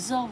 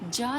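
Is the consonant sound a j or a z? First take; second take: z; j. First: The consonant is a z sound. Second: The consonant is a j sound. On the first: The speaker calls it right. "फिर हम इसे ज़ बोलेंगे" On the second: The speaker calls it wrong. "हम इसे जा नहीं बोलेंगे"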